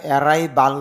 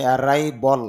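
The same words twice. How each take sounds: First: অ্যারাইভাল ending in a full "-bal" with open a; spelling pronunciation. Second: অ্যারাইভাল ending in a reduced "-bol"; IPA pronunciation. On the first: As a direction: say অ্যারাইভাল with a clear a in the last syllable. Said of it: "যদিও এখানে অ্যারাইভাল দেওয়া". (অ্যারাইভাল, শেষে "বাল") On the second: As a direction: round off the last vowel of অ্যারাইভাল to "-bol". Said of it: "IPA তে দেখা যাচ্ছে". (অ্যারাইভাল, শেষে "বল") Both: Shown as a demonstration.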